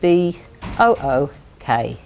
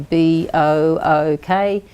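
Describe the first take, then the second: First: The two O letters are grouped together. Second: Each letter is spelled out separately. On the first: The speaker calls it right. "we cluster the letters together that make the sound" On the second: The speaker calls it wrong. "we don't say"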